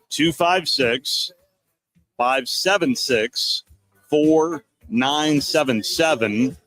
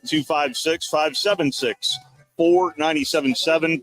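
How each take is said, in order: First: The number is read more slowly. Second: The number is read quickly. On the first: The speaker calls it right. "so I'll say it again" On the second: The speaker calls it wrong. "People have told me I say that too fast"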